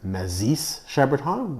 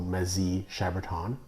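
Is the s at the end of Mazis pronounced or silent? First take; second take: pronounced; silent. First: The s at the end of Mazis is pronounced. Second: The s at the end of Mazis is silent. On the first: The speaker calls it wrong. "I used to pronounce it Mazis Chaberton, which is not correct" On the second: The speaker calls it right. "the S is silent and the I is sometimes like an E, so Mazy Chaberton is, I believe, the correct pronunciation"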